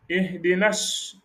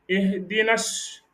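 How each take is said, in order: No difference in how they are said.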